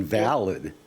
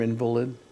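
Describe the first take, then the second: First: The stress is on the second syllable. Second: The stress is on the first syllable. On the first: Something or someone no longer counts. "it should be pronounced invalid" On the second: "You know what I hate about the term invalid?"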